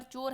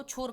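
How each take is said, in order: First: Said in the usual way. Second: छोर with a puff of air after ch; added aspiration. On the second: Shown as a demonstration. Teacher showing the error, छोर with aspirated "chh". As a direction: aspirate the opening consonant of छोर. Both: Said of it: "चा को छा में बदल दिया".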